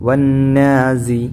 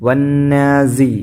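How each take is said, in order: Both takes have the same delivery.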